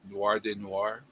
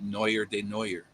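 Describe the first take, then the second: First: The name is said the standard French way. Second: The name is said with an anglicized mispronunciation. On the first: The speaker calls it right. "he was reviewing" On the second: The speaker calls it wrong. "He pronounced it"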